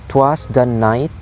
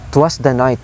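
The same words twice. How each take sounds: First: Slow "'twas the night", NIGHT stressed and rising; anapestic stress. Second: Said in the usual way. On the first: Shown as a demonstration. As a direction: beat out "'twas the night" syllable by syllable. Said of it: "the pattern is low, low, high". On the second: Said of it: "It says".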